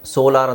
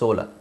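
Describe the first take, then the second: First: The word ends in a long 'ar' sound. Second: The word ends in a short weak vowel. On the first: The speaker calls it wrong. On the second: The speaker calls it right.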